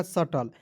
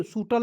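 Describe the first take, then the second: First: सटल with short uh, not oo; सटल, silent B and short first vowel; correct pronunciation. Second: सूटल with a long oo first; wrong pronunciation. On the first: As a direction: say सटल as sa-tal. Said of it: "तो हो जाएगा". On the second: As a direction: say सूटल as soo-tal. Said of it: "नहीं पढ़ लीजिएगा". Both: Shown as a demonstration.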